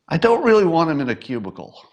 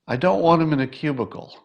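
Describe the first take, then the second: First: It is said more loudly. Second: It is said at normal loudness.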